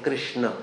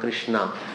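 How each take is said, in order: First: The final vowel is short. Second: The final vowel is long. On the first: It is the name of the Lord. The speaker calls it right. "Prabhupada is saying Krishna" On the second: It is the name of Draupadi. The speaker calls it wrong. "not Krishna"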